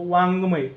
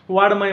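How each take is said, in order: First: The middle consonant is a nasal ng sound. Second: The middle consonant is a d sound. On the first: The speaker calls it right. "वाड्मय असा उच्चार न होता ह्याचा काय होत असतो" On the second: The speaker calls it wrong. "पण ते काय म्हणायचे, वाड्मय म्हणायचे"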